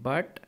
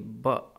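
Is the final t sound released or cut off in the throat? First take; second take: released; cut off. First: It is said in a neutral accent. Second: It is said in a British accent.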